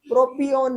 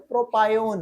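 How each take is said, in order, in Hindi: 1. दूसरे अक्षर में 'ee' स्वर है। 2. दूसरे अक्षर में 'eye' स्वर है। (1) "प्रोपियोन नहीं है" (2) "प्रोपायोन है"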